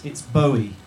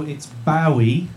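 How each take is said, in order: First: "Bowie" with OH as in go, slowed down; "Bowie" starting like "bow" in rainbow; Bowie as BOH-ee. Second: Loud, drawn-out "Bowie" with OW as in cow; "Bowie" starting like "now". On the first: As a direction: say "Bowie" to rhyme with snowy. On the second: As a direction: say "Bowie" to rhyme with wowie, slow and loud. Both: Shown as a demonstration. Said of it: "is pronounced Bowie".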